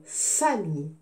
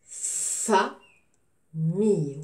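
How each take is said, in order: First: Said in the usual way. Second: Very slow FA, pause, MILLE; teacher sounding out "famille" in stretched pieces; syllable by syllable. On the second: Shown as a demonstration. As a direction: split "famille" into two long, separate beats. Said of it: "je découpe le mot".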